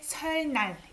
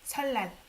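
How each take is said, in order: First: It is said letter by letter, exactly as written. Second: It is said smoothly, with the sounds run together. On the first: The speaker calls it wrong. "But you don't say 설날. It's hard to say" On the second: The speaker calls it right. "So we end up saying 설날 in pronunciation"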